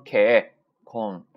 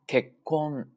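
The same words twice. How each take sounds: First: 結婚 with a stretched open ke and no tension before kon; wrong limp sokuon. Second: 結婚 slow, ke cut short, silent beat, kon; controlled sokuon. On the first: Teacher shows what not to say, slack and drawn out. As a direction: let ke drag slackly, then kon in 結婚. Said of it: "不要读成結婚". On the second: Teacher shows controlling the sound, held stop. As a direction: hold the gap firmly inside 結婚. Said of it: "一下就控制住这个音了". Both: Shown as a demonstration.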